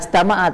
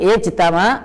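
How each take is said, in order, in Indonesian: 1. Kata ini diawali dengan vokal a. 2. Kata ini diawali dengan vokal i. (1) "enggak ajtama'a" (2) "tapi ijtama"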